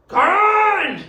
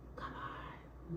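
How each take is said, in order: First: It is said in a loud shout. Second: It is said in a soft whisper.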